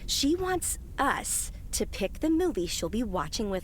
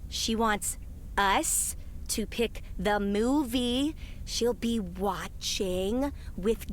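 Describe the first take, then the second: First: It is said plainly, without heavy emphasis. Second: Several words get heavy, suggestive emphasis.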